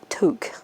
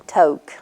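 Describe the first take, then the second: First: The word does not sound like 'toke'. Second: The word sounds exactly like 'toke'. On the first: It names the knitted winter hat. The speaker calls it right. "she informs us it's Toque" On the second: It suggests smoking marijuana. The speaker calls it wrong. "We was pronouncing it like T O K E"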